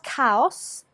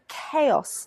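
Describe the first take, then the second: First: It is pronounced as Latin-language speakers say it. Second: It is pronounced the usual English way. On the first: The speaker calls it wrong. "not chaos" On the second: The speaker calls it right. "but chaos"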